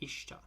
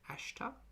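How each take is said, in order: First: The word begins with a close 'ih' vowel. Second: The word begins with an open 'ah' vowel. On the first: "Maybe I'm pronouncing it wrong" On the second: "It starts with an A, not an I"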